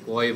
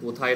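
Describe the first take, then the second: First: The word is shortened to one syllable. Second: The word is said with two full syllables. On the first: This is a local regional form. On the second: This is the standard form.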